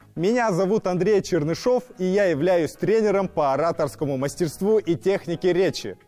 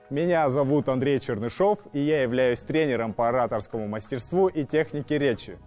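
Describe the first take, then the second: First: It is spoken in a high head register. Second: It is spoken in a middle register.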